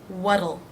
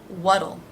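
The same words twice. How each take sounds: No difference in how they are said.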